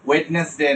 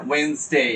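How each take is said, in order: First: ওয়েডনেসডে with the first d sounded, "wed-nes-day"; wrong spelling pronunciation. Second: ওয়েডনেসডে with silent d, "wenz-day"; correct Wednesday pronunciation. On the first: Teacher showing students the mistake, spelt-out ওয়েডনেসডে "wed-nes-day". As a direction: say ওয়েডনেসডে as spelt, all three syllables. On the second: Teacher modelling for students, two-syllable ওয়েডনেসডে "wenz-day". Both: Shown as a demonstration. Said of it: "ওয়েডনেসডে না".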